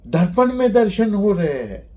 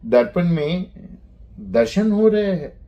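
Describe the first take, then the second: First: It is said with an exclaiming tune. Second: It is said with a questioning tune. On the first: "अभी इसी को आश्चर्य बनाना है" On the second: "तो ये हो गया प्रश्न।"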